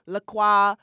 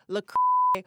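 First: "La Croix" said as "la kwah"; preferred pronunciation. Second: "La Croix" with the ending under a high bleep; alternative, bleeped pronunciation. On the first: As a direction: end "La Croix" on an open wah. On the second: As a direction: start "La Croix", censor it after the K. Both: Shown as a demonstration. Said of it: "whatever you wanna call it".

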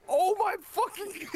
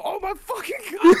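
First: High, drawn-out cry, cracking up; retold yell. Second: Loud, very high yell; retold yell. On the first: Storyteller replays his horrified cry at drive-through, retold yell. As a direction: wail it slowly, high, through laughter. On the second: Storyteller shows friends how he yelled out, retold yell. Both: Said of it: "like, I literally yell out".

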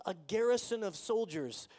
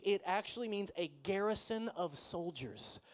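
First: Garrison of soldiers said louder with garrison punched; emphatic repeat. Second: Said in the usual way. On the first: Shown as a demonstration. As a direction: drive the image home. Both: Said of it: "repeats the phrase".

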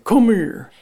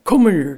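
First: Repeated call pitched up; calling out, higher. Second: Calling out. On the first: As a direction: call her over again, louder. Daddy calls Lucy again. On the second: Daddy calls Lucy. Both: A narrator's reading.

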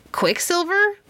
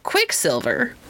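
First: High, puzzled rising echo; surprised question. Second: Doubtful repeat. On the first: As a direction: repeat it in disbelief. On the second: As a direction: turn the name over skeptically. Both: Acted. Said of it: "repeated Philemon".

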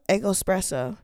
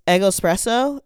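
First: "Eggo Espresso." said softer with a falling tune; settled answer. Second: "Eggo Espresso?" asked with a rising question tune; unsure try. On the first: Settling on the drink name for viewers, quiet and decided. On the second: Trying the drink name aloud for viewers, unsure and questioning. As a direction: test out "Eggo Espresso?" tentatively, pitch going up at the end. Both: Shown as a demonstration. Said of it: "pronounce it in your head".

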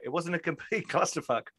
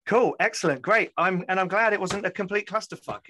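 First: Quoting it through a laugh; laughing quote. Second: Glad, excited. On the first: Retold or imitated. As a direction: repeat the line while laughing. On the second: Real, not acted. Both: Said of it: "As Shara Dell's put".

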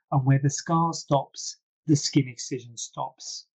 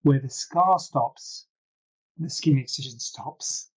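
First: Said in the usual way. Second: Slow, weighted punchline with scar and skin stressed; slogan delivery. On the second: Shown as a demonstration. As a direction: say it like a catchphrase to write down. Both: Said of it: "Write it down".

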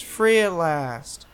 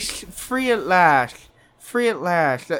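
First: Drawn out, slurred and slow; slow slurred imitation. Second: Slow, droning, slurred delivery; slurred Jones imitation. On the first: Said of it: "he's just like". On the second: To the hosts, another slow slurred take on Jones. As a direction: let it sag, half asleep. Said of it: "he's like".

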